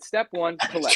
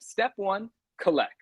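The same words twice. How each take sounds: First: It is yelled loudly with high energy. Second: It is said at a calm, normal volume. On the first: "I was feeling extra riled up that day" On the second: "said it that way before"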